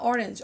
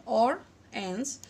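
First: Said in the usual way. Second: Slow অর, pause, then এন্স; orange cut into অর and এন্স; syllable by syllable. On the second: Shown as a demonstration. (অর, এন্স আলাদা করে ধীরে) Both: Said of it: "দুটি syllable পাই".

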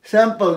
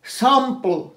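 First: স্যাম্পল as sem-pel; wrong pronunciation. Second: স্যাম্পল as saam-pl, open a; correct pronunciation. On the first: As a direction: say স্যাম্পল with a flattened e vowel. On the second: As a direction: open the first vowel of স্যাম্পল, swallow the last. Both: Shown as a demonstration. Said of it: "স্যাম্পল নয়".

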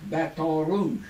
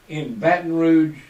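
First: "Baton Rouge" with "Rouge" said as "roo", dropping the final j sound; "Baton Rouge" the way locals say it, "Baton" softened to "batta" and "Rouge" to "roo"; local pronunciation. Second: Said in the usual way. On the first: Shown as a demonstration. Telling radio listeners how local folks say the city, local pronunciation. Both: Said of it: "or as the local folks call it".

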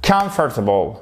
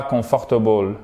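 First: Comfortable said KUMF-tuh-bul, stress on COM; correct English pronunciation. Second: Comfortable said the French way, kon-for-TA-ble; mock the French reading of comfortable; wrong French-style pronunciation. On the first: Teacher giving the right version after the wrong one. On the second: Teacher showing the mistake to avoid. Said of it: "Et pas comfortable, non". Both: Shown as a demonstration.

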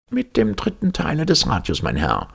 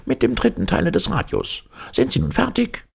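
First: High, blustering blurt. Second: High, testy repeat of the answer; impatient repeat. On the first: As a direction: bark the answer out in a huff. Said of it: "polterte Palmyrin Rosette heraus". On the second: Professor repeating the answer to Servadac, impatient. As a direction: drive it home, losing patience. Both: Acted.

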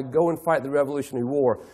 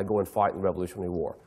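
First: Said in the usual way. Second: Much lower, softer and fast, thrown away; low, limp battle cry. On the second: Retold or imitated. Dawes' ignored battle cry, low, soft and rushed. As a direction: let the rally call fall flat and mumbled.

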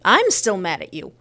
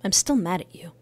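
First: Louder, insistent repeat; louder mad. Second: Said in the usual way. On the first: Acted. Telling her ex she's still angry, louder. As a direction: push it harder the second time. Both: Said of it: "I'm mad at you".

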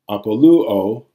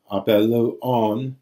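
First: Apoluo with a loud stress on lu; accent pulled forward. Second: Apeluon said slowly, stress back on the pe; recessive accent. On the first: Teacher showing omega pulls it forward, apoluo stressed on lu. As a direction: punch the lu in apoluo. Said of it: "again, the omega pulls it forward". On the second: Teacher showing accent all the way back, apeluon slowly stressed on pe. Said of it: "allows it to be all the way back". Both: Shown as a demonstration.

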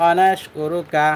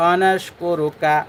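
First: Said in the usual way. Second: অনাসকু রুকা said slowly with the র heavy and thick; teacher modelling the thick র in অনাসকু রুকা; slow demo. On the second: Shown as a demonstration. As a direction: drag out অনাসকু রুকা, making the র full and heavy. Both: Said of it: "মোটা করে পড়তে হবে".

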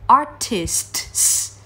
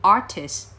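First: "artists" with S, T and S all hissed out at the end; overcareful "artists", each final consonant sounded slowly; every sound released. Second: "artists" cut down to "artis"; simplified ending on "artist", just one S; final T-S dropped. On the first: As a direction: spell out the whole S-T-S ending of "artists". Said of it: "bật tất cả các âm ra". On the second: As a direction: say "artists" without the last T and S. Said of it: "bỏ cái âm T S đi". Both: Shown as a demonstration.

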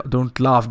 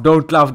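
First: Half-laughing, raised voice; mild don't-laugh plea. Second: Loud, higher, exasperated yell; sudden loud exasperated cry; don't laugh shout. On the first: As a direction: tell them off, voice rising. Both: Real, not acted. Pleading friends not to laugh.

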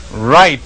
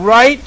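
First: Right, falling flat as the reply; Right, said low and settled like an answer. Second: Right? rising high as a question; right? pitched up, pleading for agreement; asking rise. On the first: Speaking for God, Right, falling as an answer. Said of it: "says he, talking on behalf of God". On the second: Old man to God, right? rising as a question. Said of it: "Now, I've never asked you for anything". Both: Retold or imitated.

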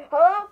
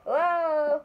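First: High, loud opening call; echo voice call. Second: Drawn-out echo of a hello; echo voice reply. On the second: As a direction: answer the call like a lingering echo. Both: Pretend. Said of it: "let's do an echo voice".

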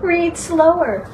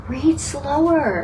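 First: Higher, slow, teasing repeat of read slower; mock Curtis, higher and slow; mock Curtis echo. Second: Slow, drawn-out quote of Curtis's advice; a hint of Curtis, slow and deliberate; Curtis saying read slower. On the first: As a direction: echo Curtis with a playful lift. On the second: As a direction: stretch it out like Curtis reminding them. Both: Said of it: "have you heard Curtis say".

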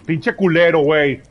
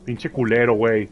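First: Louder, angry cursing; angry shout. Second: Said in the usual way. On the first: Real, not acted. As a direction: yell the curse out. Cursing louder the second time.

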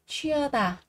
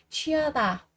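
No difference in how they are said.

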